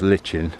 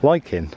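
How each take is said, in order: First: The middle sound is 'ch' as in church. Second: The middle sound is 'k' as in like. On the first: The speaker calls it wrong. "for anyone who thinks it's lichen" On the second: The speaker calls it right. "you pronounce it k. Hence"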